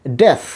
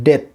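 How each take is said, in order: First: ডেথ ending in a hissed English th; correct final th. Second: ডেথ ending in a Bengali থ stop; common mispronunciation. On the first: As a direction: let air flow at the end of ডেথ. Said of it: "এখানেও সা sound হবে". (ডেথ-এর শেষে বাতাস ছেড়ে th) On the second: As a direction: cut ডেথ off on a hard t. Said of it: "এটার উচ্চারণ আমরা করি". (ডেথ-এর শেষে বাংলা থ) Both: Shown as a demonstration.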